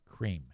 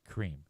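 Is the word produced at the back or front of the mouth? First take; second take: front; front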